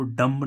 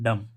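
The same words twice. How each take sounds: First: डम्ब said with a sounded b at the end; wrong way: डम्ब with the final b sounded; wrong pronunciation with b. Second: डम said as dum, the b silent; right way: डम ending cleanly on m; correct silent b. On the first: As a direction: pronounce डम्ब as dumb with the b voiced, the wrong way. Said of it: "इसे को डम्ब नहीं पढ़ रहा है". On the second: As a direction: say डम with no b at the end, the right way. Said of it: "इसको क्या पढ़ रहा है डम". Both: Shown as a demonstration.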